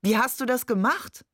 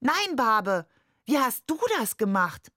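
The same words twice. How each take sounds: First: Higher question rising on DAS; mock astonishment. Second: Put-on higher-pitched child's retort, falling at the end; delighted calling out. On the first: Father feigns amazement to Nuri, calling out astonished. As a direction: call it out amazed, lifting "das" at the end. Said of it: "rief er". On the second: Nuri answers Barbe's coin trick, calling out higher in delight. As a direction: throw the question back, pitched up. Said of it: "während er rief". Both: A narrator's reading.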